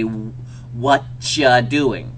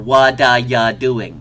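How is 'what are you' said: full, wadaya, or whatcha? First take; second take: whatcha; wadaya. First: The opening words blend into one word, whatcha. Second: The opening words blend into one word, wadaya. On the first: "when you do it in phonetics, it would be"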